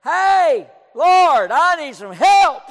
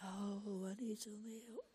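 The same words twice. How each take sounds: First: Loud, high shout to God; crying out. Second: Tiny, barely audible mock plea; mock feeble cry. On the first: Retold or imitated. Distressed man talking to God alone in the auditorium, crying out. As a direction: holler the plea at full force. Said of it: "I said just about like that, maybe a little louder". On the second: Preacher showing how one would not cry out, feeble murmur. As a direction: cry out pitifully softly, as a joke. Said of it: "Did you cry out like".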